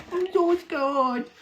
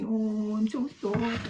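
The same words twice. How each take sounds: First: Very high, slow, stretched "I'm so scared"; milk the fake terror to the max; hammed-up mock fear. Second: A lighter, higher sarcastic "I'm so scared"; mock fear. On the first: Mocking the dox threat, exaggerated. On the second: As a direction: toss off the fake fright half-heartedly. Mocking the dox threat again.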